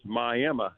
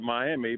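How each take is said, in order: First: It is said the way Oklahoma locals say it. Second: It is said the way Florida people say it. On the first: This is the Oklahoma city named for the tribe. "here in Oklahoma, we pronounce it as" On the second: This is the Florida city's name. "like everybody down in Mi- in Florida call it"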